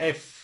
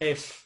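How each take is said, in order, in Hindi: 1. F को दांतों को होंठ पर रखकर बनाया जाता है। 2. F को दांतों को होंठ पर रखकर बनाया जाता है।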